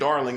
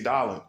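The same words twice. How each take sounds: First: It is said in an ordinary, modern way. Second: It is said like an older man would say it. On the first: This is not how older people say it. The speaker calls it wrong. "They don't say darling" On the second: This is how older people say it. The speaker calls it right. "they say darling"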